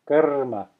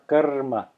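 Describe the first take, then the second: First: It has a short uh and rolled r. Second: It has a short uh and rolled r.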